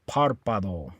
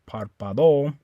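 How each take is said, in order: First: The stress is on the first syllable. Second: The stress is on the last syllable. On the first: The speaker calls it right. "put the stress on this A. So you say párpado" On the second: The speaker calls it wrong. "You don't stress the O. You don't say párpado"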